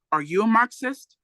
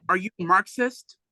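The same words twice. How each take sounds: First: The cop presses harder, raising the voice; louder tone. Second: Said in the usual way. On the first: Retold or imitated. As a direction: question pushed a bit louder, pitched up. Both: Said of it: "the pig asked in a louder tone of voice".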